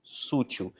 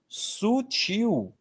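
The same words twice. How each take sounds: First: Sútil, with the weight on the first SU; sútil stressed on the first syllable; wrong stress, first syllable. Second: Sutil, stressed on the final TIL; stress on the last syllable. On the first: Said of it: "Tem muita gente que escreve sútil". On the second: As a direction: lean into the end of sutil. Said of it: "sutil é oxítona". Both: Shown as a demonstration.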